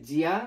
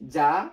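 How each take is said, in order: First: It is split into two syllables, jee-ya. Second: It is blended into one syllable, ja. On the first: The speaker calls it wrong. "অনেকে মনে ভাবতেছেন যে জিয়া" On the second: The speaker calls it right. "কিন্তু না, এটার প্রনাউন্সিয়েশন হবে যা"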